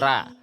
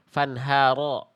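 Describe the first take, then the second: First: The vowel sounds light and open, like 'a'. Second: The vowel sounds full and rounded, like 'o'. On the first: The speaker calls it wrong. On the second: The speaker calls it right.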